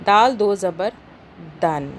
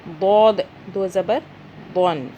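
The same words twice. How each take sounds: First: دال with a thin, light D; thin dal. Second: دود with a heavy, rounded D; thick dwad. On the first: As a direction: say دال lightly, without rounding the mouth. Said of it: "دال کو ہم نے دال پڑھا باریک". (دال کو باریک آواز میں) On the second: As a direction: round the inside of the mouth and raise the back of the tongue for دود. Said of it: "دود کو موٹا پڑھنا ہے". (دود کو موٹا، منہ گول کر کے) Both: Shown as a demonstration.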